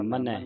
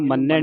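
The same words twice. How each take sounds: First: ਮੰਨੈ as "ma-nai", light and softer; soft single n. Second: ਮੰਨੈ with a held double "nn"; doubled n. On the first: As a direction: ease off the n in ਮੰਨੈ, no doubling. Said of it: "ਇਹ ਪੋਲਾ ਪੜ੍ਹਨਾ". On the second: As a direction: demonstrate mistaken ਮੰਨੈ, "man-nai". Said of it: "ਟਿੱਪੀ ਲਾ ਕੇ ਮੰਨੈ". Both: Shown as a demonstration.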